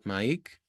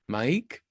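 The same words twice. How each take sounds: First: The vowel in the name is held long. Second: The vowel in the name is short.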